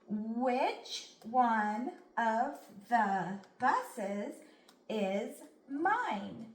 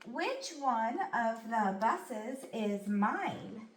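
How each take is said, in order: First: The sentence is read slowly. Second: The sentence is read at normal speed. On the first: "read it slow" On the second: "then we'll read it at a normal pace"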